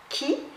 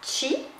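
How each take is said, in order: First: The word begins with a 'k' sound. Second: The word begins with a 'ch' sound. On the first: The term comes from Japan. "ça vient du Japon" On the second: The term comes from China. "ça vient de la Chine"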